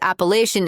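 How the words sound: It is said the northern way, with ch. "the northern pronunciation"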